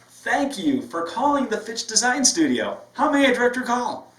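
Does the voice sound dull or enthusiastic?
enthusiastic. It sounds smiling and enthusiastic.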